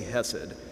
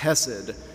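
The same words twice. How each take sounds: First: The first sound is a plain, soft h. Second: The first sound is a rough, gargled throat sound. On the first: "so I'll just say hesed" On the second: "you would do a gargling sound in your throat when you say the H"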